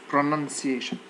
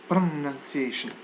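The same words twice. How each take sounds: No difference in how they are said.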